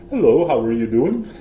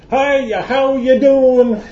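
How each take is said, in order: First: Mock British accent, a bit louder; a clumsy try at a posh British hello; bad British accent. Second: Hammed-up American greeting, much higher and louder, slow and laughing; a loud, over-the-top American hello, stretching the words through a laugh; overdone American accent. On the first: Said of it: "that's not actually a very good British accent". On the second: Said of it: "And so I choose American".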